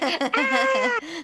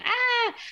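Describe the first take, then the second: First: A long, loud scream ending in coughing. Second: A short scared scream.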